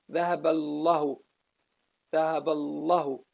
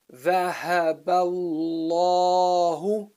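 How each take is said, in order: First: "الله" with a short, cut vowel after lam; missing alif. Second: Slow recitation, long heavy aa in "الله"; assumed alif. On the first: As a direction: say "الله" quickly, no long aa. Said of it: "Otherwise, you would pronounce it as". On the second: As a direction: hold the vowel after the lam in "الله". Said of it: "it's assumed to be there". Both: Shown as a demonstration.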